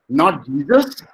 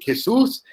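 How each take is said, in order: First: The name is said with an English pronunciation. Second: The name is said with a Spanish pronunciation. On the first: The speaker calls it wrong. "Many of Indian students, they call him Jesus" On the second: The speaker calls it right. "in Spain, Jesus sounds Jesus"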